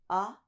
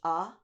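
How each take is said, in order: First: A deeper 'ah' made with a lowered tongue. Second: A plain, ordinary open 'ah' vowel. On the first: "Lower, lower tongue" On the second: "if your normal one is ah"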